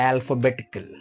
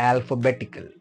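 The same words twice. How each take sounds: Both takes have the same delivery.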